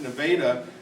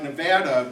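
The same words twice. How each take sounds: First: The name is said the local Iowa way. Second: The name is said the standard, usual way. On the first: This is how the locals say it. "in Iowa they pronounce it Nevada" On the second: This is how the spelling suggests it. "it's written like Nevada"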